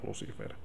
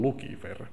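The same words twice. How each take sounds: First: The name is said the everyday Finnish way. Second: The name is said the Latin way. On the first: The speaker calls it wrong. "eikä Lucifer" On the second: The speaker calls it right. "kun se on latinaa, niin itse asiassa se lausutaan Lucifer"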